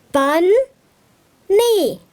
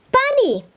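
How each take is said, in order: First: "Bun" and "knee" said as two separate beats with a pause between; syllables split apart. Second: Said in the usual way. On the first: Shown as a demonstration. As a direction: clap out "Bun, knee" one syllable at a time. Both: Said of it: "That's two syllables".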